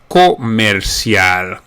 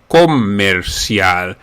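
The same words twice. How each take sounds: First: It is said with Spanish sounds. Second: It is said with Spanish sounds.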